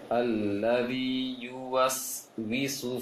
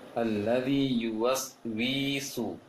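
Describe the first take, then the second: First: The wi vowel is kept short. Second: The wi vowel is drawn out. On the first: The speaker calls it right. "seharusnya pendek" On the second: The speaker calls it wrong. "sering salah ... wi-nya terpanjangkan"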